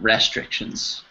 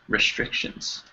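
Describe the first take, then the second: First: The first vowel is a full vowel. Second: The first vowel is a reduced schwa. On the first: The speaker calls it wrong. "It's not restrictions" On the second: The speaker calls it right. "more of a well, schwa"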